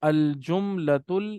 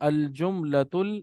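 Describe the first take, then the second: Both takes have the same delivery.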